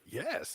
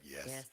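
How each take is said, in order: First: It is said eagerly and brightly. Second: It is said in a flat, resigned way.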